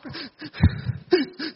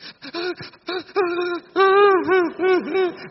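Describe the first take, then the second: First: High, broken mock sobs with gasps; demonstrated choked weeping. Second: High-pitched mock sobs in a long run; demonstrated loud sobbing. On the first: Monk showing crying over an injustice, choked mock weeping. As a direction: act out wronged, hitching sobs. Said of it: "Đấy, gọi là khóc tức tưởi". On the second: Monk showing listeners what sobbing is, mock sobbing. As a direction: act out sobbing your heart out, high. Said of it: "Khóc nức nở đi". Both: Shown as a demonstration.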